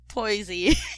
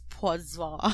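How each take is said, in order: First: The name is said with an English pronunciation. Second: The name is said with a French pronunciation. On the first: This is a simplified version for convenience. "I'm gonna pronounce this as Poisy" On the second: This is how locals would say it. "They probably pronounce it as Poisson because it's French"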